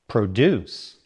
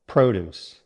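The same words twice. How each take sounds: First: The stress is on the second syllable. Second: The stress is on the first syllable. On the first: It means to make or create something. "Stress on the second syllable" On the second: It refers to fresh fruits and vegetables. "Stress on the first syllable"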